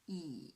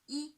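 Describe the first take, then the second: First: The pitch dips low, then rises again. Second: The pitch stays high and level, held long. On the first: "the third tone, yes, from two to one to four" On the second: "First tone on the five. On the five, high pitch, naturally prolonged"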